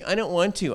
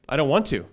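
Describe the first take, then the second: First: It sounds like a whiny, spoiled child. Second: It sounds like a composed, grown-up refusal. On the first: A child refuses openly. "the kids who say" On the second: An adult refuses in a more polished way. "we just do it in a different tone"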